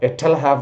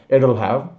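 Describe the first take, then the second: First: The t is a crisp, hard t sound. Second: The t sounds like a soft d. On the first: The speaker calls it wrong. "not like this" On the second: The speaker calls it right. "it is pronounced like soft D"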